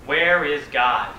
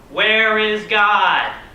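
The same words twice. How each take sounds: First: It is said sternly at a moderate volume. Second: It is bellowed at the loudest volume.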